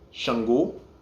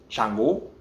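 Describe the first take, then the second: First: It begins with a sh sound, Yoruba style. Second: It begins with a ch sound, Lukumi style.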